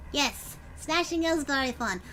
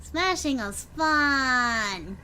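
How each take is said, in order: First: Said in the usual way. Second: Slow savoring. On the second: Shown as a demonstration.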